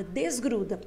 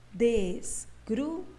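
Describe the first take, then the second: First: Said in the usual way. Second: "Desgruda" very slowly, with a clear pause between each syllable; "Desgruda" spelt out slowly in syllables for pupils. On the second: Shown as a demonstration. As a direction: break "Desgruda" into three separate, drawn-out beats. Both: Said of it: "vamos falar ela agora pausadamente".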